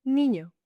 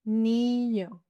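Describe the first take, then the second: First: Said in the usual way. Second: NIÑO with a long, level "ee"; slow "Niño", first vowel held; drawn-out demonstration. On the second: Shown as a demonstration. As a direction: stretch NIÑO slowly for learners. Word drawn out, then normal.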